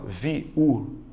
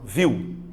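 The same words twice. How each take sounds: First: The word is split into two syllables. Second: The word is said as one syllable. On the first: The speaker calls it wrong. "Você não fala viu" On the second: The speaker calls it right. "você fala viu. É uma coisa só"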